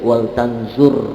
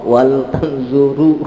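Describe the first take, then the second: First: The last word ends without any vowel. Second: The last word ends with a u vowel. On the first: The speaker calls it right. "harus sukun" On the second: The speaker calls it wrong. "nggak boleh"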